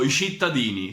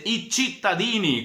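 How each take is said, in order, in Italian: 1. Si dice con accento romano. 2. Si dice in italiano standard. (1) "Cittadini non esiste" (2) "si dice i cittadini, questa è la lingua italiana vera"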